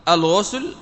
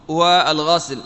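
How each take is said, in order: First: الغسل said "al-ghusl", with u; rounded u after gh in الغسل; damma on the ghayn. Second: والغسل said "wa-al-ghasl", with a; fatha on the ghayn. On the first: Teacher allowing both forms, الغسل as "al-ghusl". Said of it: "فيقال". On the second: Teacher allowing both forms, والغسل as "wa-al-ghasl". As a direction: open a after gh in والغسل. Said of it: "والأمر في ذلك واسع". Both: Shown as a demonstration.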